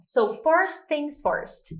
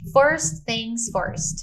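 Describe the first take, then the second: First: Slow, higher "So, first things first"; slow repeat for learners; slow model phrase. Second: Slow, drawn-out first things first; slow teacher model; slow model phrase. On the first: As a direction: drag out "first things first" clearly. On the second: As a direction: say "First things first" slowly, stressing first. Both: Shown as a demonstration.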